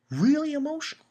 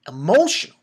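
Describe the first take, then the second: First: Really up high, pushing the feeling; more emphatic. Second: Emphatic. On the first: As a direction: stress Really and lift it well up. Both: Real, not acted.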